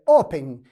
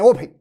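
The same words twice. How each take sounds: First: "open" with clear stress on the first syllable, O-pen; "open" said the right way, first syllable strong; correct pronunciation. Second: "open" said the wrong way, stress pulled off the first syllable; the mistaken "open" to avoid; "open" as a learner wrongly says it; wrong pronunciation. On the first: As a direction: model "open" stressed at the start. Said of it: "É open". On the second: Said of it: "Não é open". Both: Shown as a demonstration.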